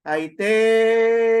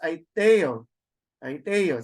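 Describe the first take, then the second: First: "Aiteo" with the te raised, loud and long held; exaggerated rising accent. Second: "Aiteo" quick, te still accented; very fast reading. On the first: Teacher demonstrating the acute accent, te in Aiteo held high and loud. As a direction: stretch and lift the te in "Aiteo". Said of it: "where the pronunciation rises". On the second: Teacher showing normal reading speed, Aiteo quick with te stressed. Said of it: "you read it very fast". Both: Shown as a demonstration.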